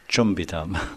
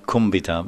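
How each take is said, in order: First: The word begins with a ch sound. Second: The word begins with a hard k sound. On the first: The speaker calls it right. "it's chumbitam" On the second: The speaker calls it wrong. "it's not kumbitam"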